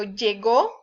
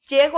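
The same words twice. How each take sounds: First: Llegó stressed lle-GÓ; lle-GÓ, past-tense stress; stress on last syllable. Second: Llego stressed LLE-go; LLE-go, present-tense stress; stress on first syllable. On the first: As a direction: land on the final ó of llegó. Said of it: "es en pasado". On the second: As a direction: say llego with an unstressed final o. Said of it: "pero llegó es en pasado". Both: Shown as a demonstration.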